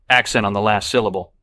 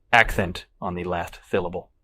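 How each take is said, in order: First: Said in the usual way. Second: "Accent" as "ack-thent", "syllable" as "thyllable"; lisping. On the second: Acted. Dog owner explains the pronunciation, lisping "last syllable".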